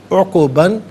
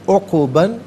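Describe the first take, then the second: No difference in how they are said.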